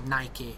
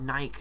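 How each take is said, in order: First: The final E is sounded as a vowel. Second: The final E is silent. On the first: This is how Americans pronounce it. The speaker calls it wrong. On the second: This is the speaker's own usual pronunciation. The speaker calls it right.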